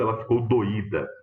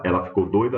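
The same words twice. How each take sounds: First: "doída" as do-Í-da, falling at the end; stress on Í. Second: "doida" as DOI-da, louder, ending on a rise; stress on DOI. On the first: Teacher showing the word with accent, "doída" stressed on the Í. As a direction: say "doída" in three syllables, stressing the Í. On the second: Teacher showing the word without accent, "doida" stressed on DOI. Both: Shown as a demonstration. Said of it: "mudei quem que é a sílaba tônica".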